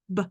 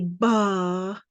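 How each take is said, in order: First: The b is said alone with no vowel. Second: The b is followed by an extra vowel. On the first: The speaker calls it right. "We just want B sound, and B sound is this" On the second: The speaker calls it wrong. "don't say ba, because that's really two sounds"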